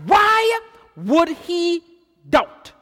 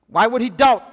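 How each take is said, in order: First: Slow rhetorical question. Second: Said in the usual way. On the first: Real, not acted. Preacher presses the congregation on why he doubted, slow and drawn out. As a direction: stretch out "Why would he" slowly, then land "doubt?". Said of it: "drawn-out rhetorical repeat". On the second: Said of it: "repeat at normal pace".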